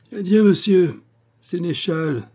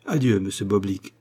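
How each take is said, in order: First: High, loud, drawn-out cutting farewell; piercing, slow mocking send-off; incisive yelp. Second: Said in the usual way. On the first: A narrator's reading. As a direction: yelp the goodbye with biting scorn. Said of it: "glapit le notaire de sa voix la plus incisive".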